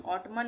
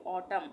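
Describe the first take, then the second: First: "ऑटमन" with an audible N at the end; wrong reading with N. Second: "ऑटम" closing on M; silent N. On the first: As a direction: say "ऑटमन", adding मन after ऑट. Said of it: "नहीं पढ़ेंगे". ("ऑटमन", आख़िर में न की आवाज़ के साथ) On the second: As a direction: say "ऑटम" with no N after the M. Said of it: "हम पढ़ेंगे ऑटम". ("ऑटम", आख़िर का न silent) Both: Shown as a demonstration.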